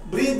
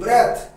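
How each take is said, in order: First: The vowel is a long 'ee' sound. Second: The vowel is a short 'eh' sound. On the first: The speaker calls it wrong. "ব্রিথ নয়" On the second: The speaker calls it right. "বারবার বলি ব্রেথ"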